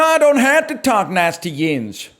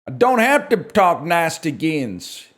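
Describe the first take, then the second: First: It is said at a faster pace. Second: It is said at a slower pace.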